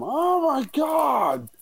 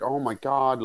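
First: Very high, slow drawn-out wail; imitated anguished wail. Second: Said in the usual way. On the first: Mother seeing the tower hit, imitated long high wail. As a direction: stretch it into a long stricken cry. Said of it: "you hear the upsetness in her voice". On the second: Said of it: "but not like".

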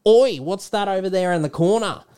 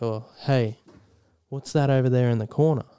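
First: Put-on high-pitched, exclaimed Australian accent; Aussie accent. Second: Put-on easy, understated American accent. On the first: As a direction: call it out as a broad Aussie. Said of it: "this is an Aussie doing it". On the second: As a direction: lightly imitate an American speaker. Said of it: "does the American".

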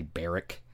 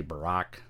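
First: "Barrack" with an "air" vowel and a short "ick" ending; BEAR-ick for "Barrack", first syllable carrying it; pronounced BEAR-ick. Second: "Barack" with a reduced first vowel and an open "rock" ending; buh-ROCK for "Barack", second syllable carrying it; pronounced buh-ROCK. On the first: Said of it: "some people say Barrack". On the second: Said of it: "Some people say Barack". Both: Shown as a demonstration.

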